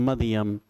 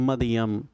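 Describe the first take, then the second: Both takes have the same delivery.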